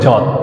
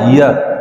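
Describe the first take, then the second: First: The word is pronounced the Bengali way. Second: The word is pronounced the Sanskrit way. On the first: The speaker calls it wrong. "Bangla উচ্চারণ করলে হবে যত" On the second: The speaker calls it right. "সংস্কৃত উচ্চারণটা হয় ইয়াত"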